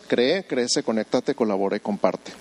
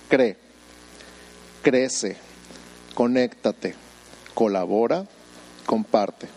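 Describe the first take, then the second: First: The list is said at normal speed. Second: The list is said slowly.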